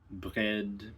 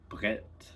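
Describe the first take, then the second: First: The word ends in a voiced consonant. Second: The word ends in a voiceless consonant.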